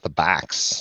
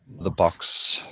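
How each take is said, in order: First: The vowel in box is American, open. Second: The vowel in box is British, rounded. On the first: "not the backs" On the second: "The British uh, say box"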